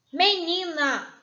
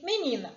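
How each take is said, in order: First: MENINA slow, louder and stretched out; drawn-out word. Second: Said in the usual way. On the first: Shown as a demonstration. Teacher presenting an example word to pupils, drawn out. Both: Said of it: "Preste atenção nessa palavrinha".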